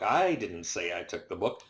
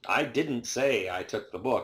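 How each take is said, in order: First: The stress is on the first word, I. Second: The stress is on the word say.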